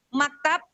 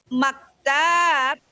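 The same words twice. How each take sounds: First: The vowel in the second syllable is short. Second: The vowel in the second syllable is long. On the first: It means a desk. "Kalau maktabnya pendek, meja" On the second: It means an office. "taknya panjang"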